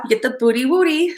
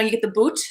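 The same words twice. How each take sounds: First: Put-on playful, lightly babyish rhyme; cutesy nursery-style rhyme, lightly done; baby talk. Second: Said in the usual way. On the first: Shown as a demonstration. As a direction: say "booty wooty" like mild baby talk. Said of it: "like, baby talk". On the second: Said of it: "like, you know, you get the boot".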